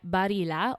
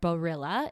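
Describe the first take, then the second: First: It is said with an Italian pronunciation. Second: It is said with an American pronunciation.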